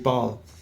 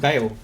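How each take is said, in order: First: The name has a long 'ah' vowel sound. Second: The name rhymes with the surname Bale. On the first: This is how the speaker remembers it. The speaker calls it right. "I think it's supposed to be Baal" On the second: This is how the game's character says it. The speaker calls it wrong.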